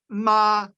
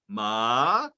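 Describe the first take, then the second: First: The pitch stays steady and high. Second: The pitch starts low and goes high. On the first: It means mother. "the first tone, which is one steady high pitch" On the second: It means hemp. "fourth tone, and it, it starts low and goes high"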